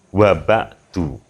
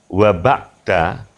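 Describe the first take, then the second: First: The word ends with a 'u' vowel. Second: The word ends with an 'a' vowel. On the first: "kalau dibaca wa ba'du" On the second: "kalau dibaca wa ba'da"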